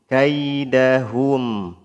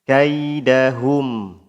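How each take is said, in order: Both takes have the same delivery.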